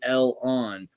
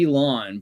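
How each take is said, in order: First: The name is split into El and on. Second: The name is said as one smooth word. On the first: This reflects the original parts of the name. The speaker calls it right. "but it's really El-on" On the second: This is the usual modern pronunciation. The speaker calls it wrong. "we're pronouncing it Elon"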